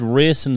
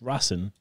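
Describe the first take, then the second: First: Racing is said with an English pronunciation. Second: Racing is said with a Spanish pronunciation. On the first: The speaker calls it wrong. "he said Racing Santander" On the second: The speaker calls it right. "It's Racing"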